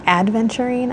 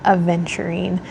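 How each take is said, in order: First: It has a d sound after the first vowel. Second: It has no d sound after the first vowel. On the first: The speaker calls it wrong. "I think it's not adventurine" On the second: The speaker calls it right. "I think it's aventurine"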